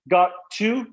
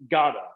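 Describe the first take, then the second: First: The word to is said in full. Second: The two words blend into gotta. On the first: "Instead of got to" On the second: "just gotta"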